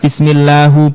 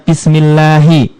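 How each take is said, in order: First: The word ends with a 'u' vowel. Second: The word ends with an 'i' vowel. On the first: The speaker calls it wrong. "enggak bismillahu" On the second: The speaker calls it right. "Kenapa dibaca misalnya bismillahi"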